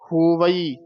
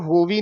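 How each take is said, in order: First: The word ends with a full 'vai' sound. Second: The word ends with a short 'vi' sound. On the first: The speaker calls it right. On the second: The speaker calls it wrong.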